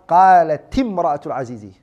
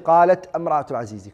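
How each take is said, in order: First: The first word ends with a short 'i' vowel. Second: The first word ends with no vowel. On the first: The speaker calls it right. "this has to become a kasra" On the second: The speaker calls it wrong. "You don't say"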